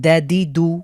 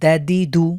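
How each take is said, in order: The two takes are said the same way.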